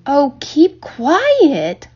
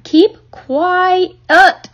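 First: High, long drawn-out complaint; upset girl's drawn-out cry; exasperated holler. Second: Higher, louder, each word hammered out; furious girl's drawn-out shout; hollered. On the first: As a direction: stretch it out in exasperation. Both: A narrator's reading. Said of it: "hollered Fern".

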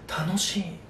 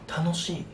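No difference in how they are said.

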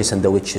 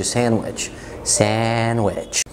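First: ساندويتش with the d sounded, "sand-wich"; ساندويتش with a full d; wrong pronunciation. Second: ساندويتش said as "san-wich", d silent; correct pronunciation. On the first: (ساندويتش غلط بنطق الـ d) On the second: (ساندويتش من غير الـ d) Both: Shown as a demonstration. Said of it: "ما تقولش ساندويتش".

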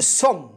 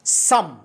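First: سم said wrongly with a rounded "o", like "som"; mispronounced vowel. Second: سم said with an open "a", like "sam"; correct open vowel. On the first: Teacher showing how some learners misread the word, mispronounced سم as "som". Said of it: "أتوقع أن البعض قد ينطقها". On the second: Teacher correcting the learner's reading, open-vowel سم as "sam". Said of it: "هذه الكلمة تنطق". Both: Shown as a demonstration.

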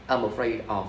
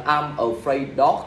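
First: Said in the usual way. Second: Slow, drawn-out wrong version of the sentence. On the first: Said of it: "afraid đi theo giới từ of". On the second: Shown as a demonstration. Teacher slowly models the common mistake, then wrong usage. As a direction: drag out the mistake so students hear it. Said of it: "Mà các bạn phải là".

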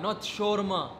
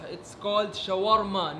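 First: Shawarma said the flat foreign way, SHOR-ma; mocked wrong shawarma. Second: Shawarma said the Arabic way, sha-WAR-ma with a rolled r; correct Arabic shawarma. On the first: Waiter mimicking the customer's wrong pronunciation. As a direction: imitate how the customer says shawarma. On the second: Waiter correcting the customer, Arabic pronunciation. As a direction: say shawarma like a native Arabic speaker. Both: Shown as a demonstration.

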